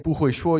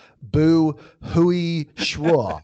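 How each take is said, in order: First: Said in the usual way. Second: "不会说" stretched out slowly and hesitantly. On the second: Shown as a demonstration. Learner slowly, hesitantly telling a local "不会说". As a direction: drag out "不会说" as if unsure of yourself. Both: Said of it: "you should say, like".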